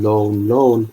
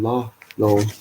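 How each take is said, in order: First: "lone, lone" said as two plain repeated lones; misheard lone lone. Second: "la, lone" with a short la before lone. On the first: Sing-song lyric, the wrong hearing. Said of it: "people think he's saying". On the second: Lyric as he really says it, la then lone. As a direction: split it "la, lone", a quick la then lone. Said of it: "he's actually saying". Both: Shown as a demonstration.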